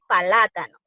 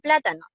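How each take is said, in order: First: An extra vowel splits the p and l apart. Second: The p and l are said together as a cluster. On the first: The speaker calls it wrong. "dice palátano" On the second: The speaker calls it right. "no dice plátano"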